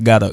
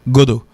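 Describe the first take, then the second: First: The word sounds like gata. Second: The word sounds like godo, in another accent. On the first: It means have or must. "ça c'est pour la prononciation, c'est gata" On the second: It carries a third meaning. "c'est godo, son l'autre accent"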